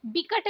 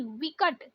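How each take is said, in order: First: विकट starting with b; wrong pronunciation. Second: विकट starting with v; correct pronunciation. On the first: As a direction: say विकट as "bikat". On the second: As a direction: say विकट as "vikat". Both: Shown as a demonstration. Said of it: "विकट नहीं".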